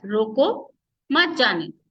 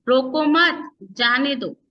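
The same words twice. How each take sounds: First: "रोको", clear pause, then "मत जाने दो"; pause after रोको. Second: "रोको मत", clear pause, then "जाने दो"; pause after मत. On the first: Teacher shows how a comma changes meaning, pausing after "रोको". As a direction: slowly, break right after "रोको" before "मत जाने दो". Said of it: "उसकी वजह से उसका भाव बदल गया". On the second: Teacher shows the opposite meaning, pausing after "मत". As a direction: slowly, break right after "मत" before "जाने दो". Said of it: "तो तीनों का ही भाव बदल गया है". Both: Shown as a demonstration.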